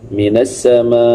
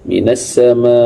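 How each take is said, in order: First: The final long vowel is held very long. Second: The final long vowel is held moderately. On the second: "empat harakat"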